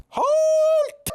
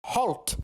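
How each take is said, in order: First: Very high, loud shout; shouted command. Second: Said in the usual way. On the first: Acted. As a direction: bellow the order to stop. Guards challenge approaching stranger.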